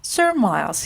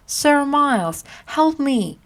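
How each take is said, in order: First: Said in the usual way. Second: High, pleading call for help; crying out for help. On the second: Acted. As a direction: cry out to him across the crowd. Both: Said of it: "he cried".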